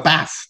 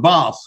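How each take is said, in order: First: It is said in a northern English accent. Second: It is said in a southern English accent. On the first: "above a certain place in these aisles, you know, they'll have a bath" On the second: "Below that, they'll have a bath"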